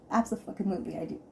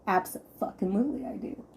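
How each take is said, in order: First: Fast, softer Abso-fucking-lutely thrown away; quick aside. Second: Abso-fucking-lutely stretched out, each part leaned on; emphatic admission. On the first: Repeating to listeners that she annoys her husband, a fast softer throwaway. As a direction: rattle off Abso-fucking-lutely again under her breath. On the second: Telling listeners she annoys her husband, an emphatic Abso-fucking-lutely. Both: Real, not acted.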